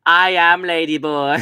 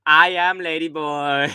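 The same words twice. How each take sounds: First: Higher, louder put-on voice; hammed-up imitation of a lady boy; mock lady boy voice. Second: Higher, slow put-on voice; drawn-out hammed-up lady boy line; mock lady boy voice again from the video. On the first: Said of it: "And she goes". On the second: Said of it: "the video of the".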